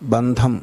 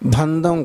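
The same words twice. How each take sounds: First: The consonant is aspirated, with a breath. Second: The consonant is plain, without aspiration. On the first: The speaker calls it right. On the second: The speaker calls it wrong.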